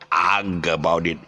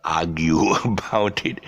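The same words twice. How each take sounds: First: "argue" clipped to one-beat "arg"; mispronounced argue. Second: "argue" slowly as "ARG-you"; correct argue. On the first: Retold or imitated. Friend overcorrecting himself, "argue" said as one-beat arg. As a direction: cut the "you" off "argue", leaving "arg". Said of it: "The word is not argue". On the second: Shown as a demonstration. Teacher fixing the mistake, "argue" as slow arg-you. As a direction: give "argue" both beats, ending in "you". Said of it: "It's argue".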